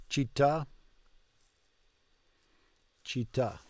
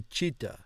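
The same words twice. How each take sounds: First: "Città" with a held double T and a short pause before the final "à". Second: "città" said with one short T, no pause; single T. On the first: Learner shows the right way, a doubled T in "Città". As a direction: hold the TT in "Città" and stress the last syllable. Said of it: "you gotta make it two T's and pause in between". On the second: Learner shows the wrong way, a single T in "città". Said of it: "To say it as one T". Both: Shown as a demonstration.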